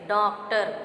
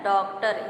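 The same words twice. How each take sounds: First: The first vowel is said through the nose. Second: The first vowel is said without nasal sound. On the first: The speaker calls it wrong. "नाक से इसका उच्चारण जब हम करेंगे तो कहेंगे डॉक्टर" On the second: The speaker calls it right. "शुद्ध उच्चारण इसका है डॉक्टर"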